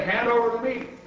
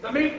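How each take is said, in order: First: Raised, hearty pirate demand; pirate captain's demand. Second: High storybook roar; crew's roar. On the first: Captain at dinner table, raised demand. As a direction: demand food in a higher voice. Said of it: "and said, "Hand over the meat!". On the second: Hungry crew echoing captain, high roar. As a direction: echo the demand, pitched right up. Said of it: "we all roared". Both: A narrator's reading.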